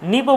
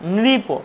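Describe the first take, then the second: First: The first syllable is 'ni' with no r. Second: The first syllable is 'nri' with an r sound. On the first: The speaker calls it wrong. "নৃপ বলতে পারবো না, নিপো বলে দেবো" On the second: The speaker calls it right. "আসল উচ্চারণটা কি নৃপ"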